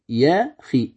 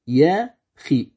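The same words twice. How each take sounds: No difference in how they are said.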